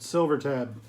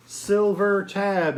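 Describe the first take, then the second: First: Said in the usual way. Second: "Silver Tab" drawn out slow and set apart, high; emphasized name. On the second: Shown as a demonstration. Reseller spells out the brand "Silver Tab" slowly for viewers. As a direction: linger on "Silver Tab" so it sticks. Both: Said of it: "if you don't know it, know it".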